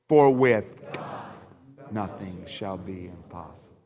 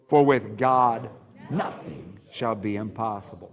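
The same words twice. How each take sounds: First: The word God carries the main stress. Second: The word nothing carries the main stress. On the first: "Let's emphasize the title or the name God" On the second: "emphasize the word nothing"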